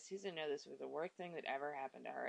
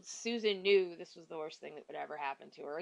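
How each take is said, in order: First: Low, soft, flat monotone with no emotion; dry sterile reading. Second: Said in the usual way. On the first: Shown as a demonstration. Reviewer mocking the book's emotionless narration, dry and sterile. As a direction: read it like a detached report. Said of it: "sterile kinda way". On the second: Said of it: "except the way that you're hearing it in your head is".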